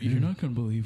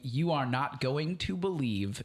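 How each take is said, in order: First: It is said in a very deep, low voice. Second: It is said in an ordinary speaking voice. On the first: "super deep" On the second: "I obviously can't um do a, a, a an impression of Aquafina"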